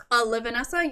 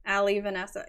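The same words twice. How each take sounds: First: "Uh, Livanessa" as one name, uh-LIV-uh-NESS-uh; correct name pronunciation. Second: "Ali Vanessa" like two names, AL-ee va-NESS-a; wrong name pronunciation. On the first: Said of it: "That's how it's pronounced". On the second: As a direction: open "Ali Vanessa" on a stressed "Al". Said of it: "putting the stress on the wrong syllables". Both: Shown as a demonstration.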